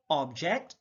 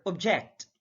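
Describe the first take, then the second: First: OBject, first syllable stressed; careful demo of OBject. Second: ObJECT, second syllable stressed; careful demo of obJECT. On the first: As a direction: say "object" with a full, open OB. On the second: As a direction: say "object" with weak ob, strong JECT. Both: Shown as a demonstration. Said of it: "stress is the verbal emphasis used".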